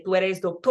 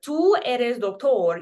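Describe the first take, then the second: First: Said in the usual way. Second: Slow, careful "Tú eres doctor."; Spanish model sentence. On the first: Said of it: "We just say". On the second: Shown as a demonstration. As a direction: spell out "Tú eres doctor" slowly for learners. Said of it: "this is reading as you".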